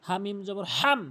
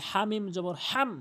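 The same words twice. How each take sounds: Both takes have the same delivery.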